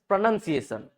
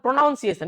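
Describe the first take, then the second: First: The second syllable sounds like 'nun'. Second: The second syllable sounds like 'noun'. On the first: The speaker calls it right. "अब प्रणन पढ़ेंगे" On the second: The speaker calls it wrong. "It is not प्रोनाउंसिएशन"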